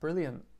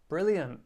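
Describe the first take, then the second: First: It is said flatly, with little expression. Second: It is said sarcastically, meaning the opposite.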